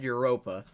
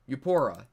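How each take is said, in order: First: The second syllable sounds like 'ro'. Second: The second syllable sounds like 'por'. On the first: The speaker calls it wrong. "I said Europa. No" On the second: The speaker calls it right. "There we go"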